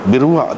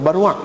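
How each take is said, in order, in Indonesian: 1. Vokal pertama adalah bunyi i. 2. Vokal pertama adalah bunyi a. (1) "birwa tu hak lebih betulnya" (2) "bukan barwa"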